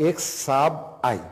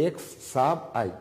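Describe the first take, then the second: First: এক্স সাব আই spelled out as eks, sab, i; reading x sub i. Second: Said in the usual way. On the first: Shown as a demonstration. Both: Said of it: "এই আইটাকে পড়া হয়".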